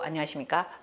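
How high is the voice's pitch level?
lowest. It is said at the lowest pitch level. "도"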